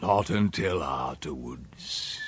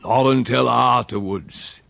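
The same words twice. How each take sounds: First: Low, soft, slow and ominous; dark, brooding echo. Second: Slow, firm, ominous rustic voice; dark hint. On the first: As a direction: repeat it darkly, sinking away. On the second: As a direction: say it darkly, with weight. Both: A narrator's reading. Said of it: "he said darkly".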